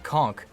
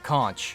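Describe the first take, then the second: First: The word ends with a hard k sound. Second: The word ends with a ch sound. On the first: The speaker calls it right. "it's pronounced Conk" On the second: The speaker calls it wrong. "not Conch"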